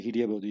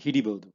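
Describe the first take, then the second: First: ಹಿಡಿಯಬಹುದು with a clear ya glide between ಹಿಡಿ and ಬಹುದು; correct form. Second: ಹಿಡಿಬಹುದು run together with the ya dropped; wrong form. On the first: Teacher modelling the correct form for learners, ಹಿಡಿಯಬಹುದು with the ya sounded. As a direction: say ಹಿಡಿಯಬಹುದು carefully, ya fully sounded. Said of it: "You have to say". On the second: Teacher showing learners the clipped form to avoid, ಹಿಡಿಬಹುದು without ya. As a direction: say ಹಿಡಿಬಹುದು quickly, no ya after ಹಿಡಿ. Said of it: "you should not say". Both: Shown as a demonstration.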